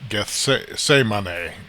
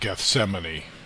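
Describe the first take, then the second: First: The word has a Greek-style pronunciation. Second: The word has an American English pronunciation. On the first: "it's supposed to be pronounced Gethsemane, ... I guess in Greek" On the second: "in just Americanized English, I guess we tend to pronounce it Gethsemane"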